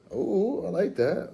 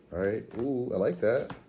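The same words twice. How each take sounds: First: Much higher, delighted ooh. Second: Said in the usual way. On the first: Real, not acted. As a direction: squeal with delight at it.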